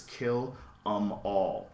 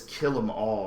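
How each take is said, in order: First: "kill 'em all" drawn out slowly; slow and deliberate. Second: Said in the usual way. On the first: Retold or imitated. Reading out a tattoo's exact wording, "kill 'em all" slow and deliberate. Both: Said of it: "E M all".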